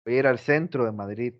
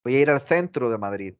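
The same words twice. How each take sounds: First: "centro" starting with a plain s sound; Latin American seseo. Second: "centro" starting with a th sound, tongue between teeth; Madrid ceceo. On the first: Teacher giving our version before theirs, seseo. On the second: Teacher showing how Spaniards say it, Castilian th. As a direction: lisp the c of "centro" as in English "think". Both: Shown as a demonstration. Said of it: "¿Cómo lo dicen ellos?".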